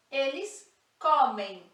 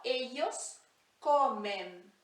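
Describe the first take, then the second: First: Comem with a nasal ei at the end, comeim; Portuguese ending. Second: Comen with a plain final n, no i-glide; Spanish ending. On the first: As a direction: finish comem on a nasal ei glide. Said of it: "Como se aqui tivesse um i no meio". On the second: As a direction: end comen on a clean n. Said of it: "sem esse i no meio". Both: Shown as a demonstration.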